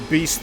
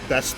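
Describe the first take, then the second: First: The vowel is long, as in beast. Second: The vowel is short, as in best. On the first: This is how outsiders say the name. "as you say" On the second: This is how locals say the name. "we pronounce it best"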